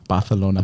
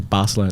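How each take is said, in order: First: The c is a lisped th sound. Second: The c is a plain s sound. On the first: The speaker calls it right. "You gotta say it with like a lisp" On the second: The speaker calls it wrong. "they don't say Barcelona"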